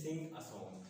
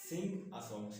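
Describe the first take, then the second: First: Slow, word-by-word sing a song; slow example. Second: Said in the usual way. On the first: Shown as a demonstration. Teacher slowly models sing a song for students. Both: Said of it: "ऐसे sing a song".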